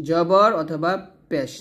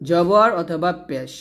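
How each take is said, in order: Both takes have the same delivery.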